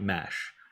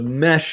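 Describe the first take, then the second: First: The word does not rhyme with flesh. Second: The word rhymes with flesh. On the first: The speaker calls it wrong. "not mesh" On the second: The speaker calls it right. "is pronounced like it rhymes with flesh"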